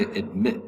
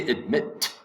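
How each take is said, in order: First: "admit" with the final T held back, unreleased; American disappearing T. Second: "admit" ending in a crisp, audible T; fully released T. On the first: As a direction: stop on the T of "admit" without releasing it. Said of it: "Americans will say admit". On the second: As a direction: release the final T of "admit" clearly. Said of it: "you could say admit". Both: Shown as a demonstration.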